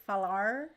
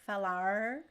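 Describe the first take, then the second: No difference in how they are said.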